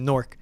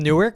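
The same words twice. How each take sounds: First: It is said the way locals say it. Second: It is said the ordinary, standard way.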